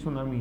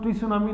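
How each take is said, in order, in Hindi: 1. शब्द की शुरुआत s ध्वनि से होती है। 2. शब्द की शुरुआत t ध्वनि से होती है। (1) "ये सुनामी है" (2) "टी सुनामी नहीं है ये"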